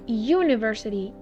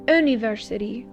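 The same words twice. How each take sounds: First: The word begins with a Y sound. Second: The word begins with a plain vowel sound. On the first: The speaker calls it right. "as if it was a Y, like university" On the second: The speaker calls it wrong. "not university"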